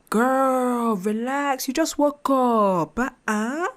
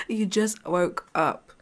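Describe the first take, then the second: First: Put-on much higher and louder, drawn out, girl relax; exasperated best friend snapping at her to chill; exasperated high scolding. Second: Said in the usual way. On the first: To her anxious self in the mirror, loud high exasperated scolding. Telling herself off loudly.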